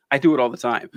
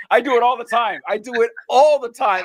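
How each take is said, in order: First: Said in the usual way. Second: Higher, animated self-quote; raised-pitch exclaimed realization; retold realization. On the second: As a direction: act out suddenly recognizing your own habit. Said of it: "I was like".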